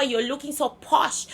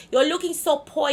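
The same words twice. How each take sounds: First: Said in the usual way. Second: "poi" said as a slangy clipped posh; "so poi" instead of posh; saying poi. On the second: Shown as a demonstration.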